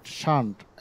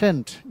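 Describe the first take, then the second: First: It is said with a British accent. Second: It is said with an American accent.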